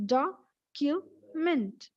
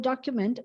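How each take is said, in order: First: "document" very slowly in three parts, doc, u, ment; split into syllables. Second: Said in the usual way. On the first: Shown as a demonstration. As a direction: clear pauses inside "document" after each syllable. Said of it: "that is how we split". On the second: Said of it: "If I ask you to split the word".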